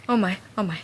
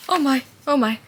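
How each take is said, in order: First: Breathless whisper of disbelief. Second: Louder and higher gasping exclamation; stunned. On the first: Reader hitting the book's big moment, whispering in shock. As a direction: drop to a whisper, stunned. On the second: Reader hitting the book's big moment, stunned out loud. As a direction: blurt it out in shock. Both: Real, not acted.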